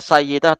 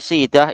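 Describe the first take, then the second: First: The name begins with a 'say' sound. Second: The name begins with a 'see' sound. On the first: The speaker calls it wrong. "jangan baca Sayyidah" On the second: The speaker calls it right. "tapi Sidah itu yang betul"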